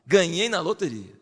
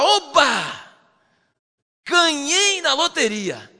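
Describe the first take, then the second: First: Said in the usual way. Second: Higher, louder, slow joyful cry; overjoyed. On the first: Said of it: "Ele fala assim". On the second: Retold or imitated. Preacher acts out David's joy, high and loud. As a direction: shout it like a lottery win. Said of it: "Ele fala".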